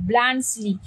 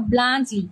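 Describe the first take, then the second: First: "ব্লান্সলি" with the s fully sounded; "ব্লান্সলি" as many students wrongly say it, s pronounced; common mispronunciation. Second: "ব্লান্সলি" with the s silent, blantch-li; "ব্লান্সলি" the Swiss way, no s sound; correct pronunciation. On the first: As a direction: demo the wrong "ব্লান্সলি" with a clear s. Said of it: "অনেকে ব্লান্সলি বলে". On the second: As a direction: model "ব্লান্সলি" for the class, s left silent. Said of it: "এসটা কি হয়? উচ্চারণ হয় না". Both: Shown as a demonstration.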